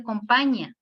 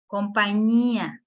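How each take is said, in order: First: "compañía" mispronounced as "com-PA-ña", no stressed í; wrong stress. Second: "Compañía" slowly, stress on the í; stressed hiatus. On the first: Teacher showing what it cannot be, "compañía" said wrongly as com-PA-ña. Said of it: "no puede ser compañía". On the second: Teacher showing that the word demands emphasis, í stressed in "Compañía". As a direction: hold the í of "Compañía" apart from the final a. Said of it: "Por más que no quiera ponerle énfasis". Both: Shown as a demonstration.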